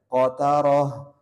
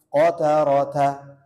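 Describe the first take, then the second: First: The word ends with an h sound. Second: The word ends with a t sound and vowel. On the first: The reading stops at this word. "kalau di sini ada wakof maka tetap dibaca ha" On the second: The reading continues without a stop. "kalau tidak ada wakof maka dibaca tak marbutoh"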